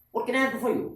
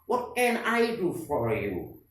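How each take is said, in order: First: The sentence is spoken quickly. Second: The sentence is spoken slowly. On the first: "Yang ketiga dibaca cepat" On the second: "Tiga kali yang pertama dibaca pelan"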